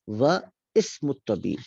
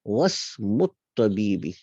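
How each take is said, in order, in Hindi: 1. हर शब्द अलग-अलग बोला गया है और अलिफ़ साफ़ बोला गया है। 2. शब्द जुड़कर बोले गए हैं और अलिफ़ नहीं बोला जाता। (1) "अगर हम अलहदा पढ़ते" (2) "वाव को किसके साथ मिलाएंगे, सीन के साथ"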